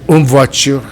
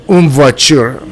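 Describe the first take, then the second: Both takes have the same delivery.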